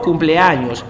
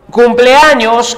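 First: Said in the usual way. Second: Slow spelling-out. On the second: Shown as a demonstration. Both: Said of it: "cumpleaños también está en, mayúscula".

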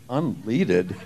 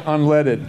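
First: "Unleaded" said as un-LEE-did; mispronounced unleaded. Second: Said in the usual way. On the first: Retold or imitated. Puzzled driver repeating the seller's word, "Unleaded" as un-LEE-did. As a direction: echo "Unleaded" quietly with a long EE in the middle. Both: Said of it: "She was saying unleaded".

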